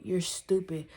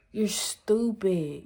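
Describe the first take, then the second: First: Said in the usual way. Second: "stupid" stretched out slowly for emphasis; drawn-out stress. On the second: Real, not acted. Emphatic repeat of the insult.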